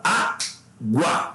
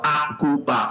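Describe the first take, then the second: First: Água in two slow beats, á-gua; correct syllable division. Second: Água broken into three beats, á-gu-a; wrong syllable division. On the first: Teacher shows students the real form, água split slowly in two. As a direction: pause after á, then gua as one glide. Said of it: "você fala água". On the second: Teacher shows students what nobody says, água in three split syllables. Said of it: "Você não fala água". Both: Shown as a demonstration.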